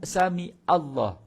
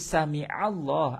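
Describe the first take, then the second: First: A plain glottal stop comes before 'Allah'. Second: A throaty ain sound comes before 'Allah'. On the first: The speaker calls it wrong. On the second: The speaker calls it right. "Ain yang menguatkan lafaz Allah itu"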